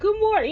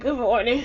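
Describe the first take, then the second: First: The greeting sounds warm and cheerful. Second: The greeting sounds hurried and impatient.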